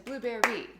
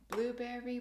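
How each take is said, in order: First: The stress is on the last syllable. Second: The stress is on the first syllable. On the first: The speaker calls it wrong. "We don't want the emphasis on the last note of the triple triplet" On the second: The speaker calls it right. "That blue part of it is where the emphasis should go"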